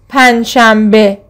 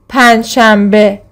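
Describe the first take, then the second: No difference in how they are said.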